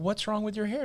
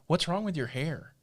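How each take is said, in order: First: It sounds friendly and admiring. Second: It sounds critical and disapproving.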